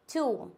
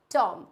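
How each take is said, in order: First: टूम with a long "oo"; correct pronunciation. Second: टॉम with an open "o", pitched lower; wrong pronunciation. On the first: Teacher giving the corrected form, टूम with long "oo". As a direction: say टूम with drawn-out "oo". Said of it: "इसको हम टूम पढ़ते हैं". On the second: Teacher showing the common mistake, टॉम with open "o". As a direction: say टॉम to rhyme with "from". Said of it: "टॉम totally wrong होता है". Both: Shown as a demonstration.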